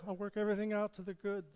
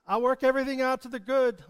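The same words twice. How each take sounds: First: Much softer quick echo. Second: Loud, quick promise; called promise. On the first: Preacher echoes God's promise softly. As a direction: send it back quietly like an echo. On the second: Preacher calls out God's promise to be echoed. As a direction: proclaim it out boldly. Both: Shown as a demonstration. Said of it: "echo his promises".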